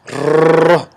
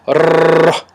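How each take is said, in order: First: The r is rolled long and heavily. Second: The same.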